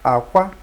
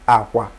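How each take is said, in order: First: It carries the tone pattern meaning egg. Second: It carries the tone pattern meaning bed. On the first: The word means egg. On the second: The word means bed.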